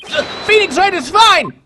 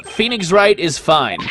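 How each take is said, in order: First: High, loud, stammered-start yell; louder forced shout. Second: Half-hearted, slow joining in; reluctant compliance. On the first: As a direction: shout it slowly so they can hear you. I can't hear you!. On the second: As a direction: go along with the chant reluctantly. Do I really have to?. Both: Acted.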